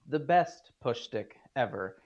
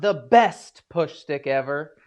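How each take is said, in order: First: The word best gets no special emphasis. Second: The word best is strongly emphasized. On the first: The claim is made modestly. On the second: It is boldly claimed as the very best.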